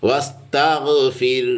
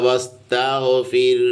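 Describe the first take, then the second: Both takes have the same delivery.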